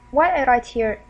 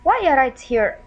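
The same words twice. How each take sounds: The two takes are said the same way.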